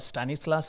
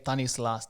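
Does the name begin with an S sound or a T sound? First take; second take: S sound; T sound. First: The name begins with an S sound. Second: The name begins with a T sound. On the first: This is the English form of the name. "in English they call Stanislas sometime" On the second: This is the Tamil form of the name. "when we uh, say it in Tamil"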